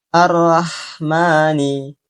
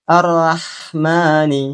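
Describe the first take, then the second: No difference in how they are said.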